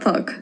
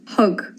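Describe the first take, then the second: First: It sounds like English 'thug'. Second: It sounds like 'hug', the Irish reading. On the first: The speaker calls it wrong. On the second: The speaker calls it right.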